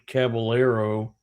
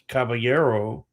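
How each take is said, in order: First: It is said with an English-style pronunciation. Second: It is said with a Spanish-style pronunciation.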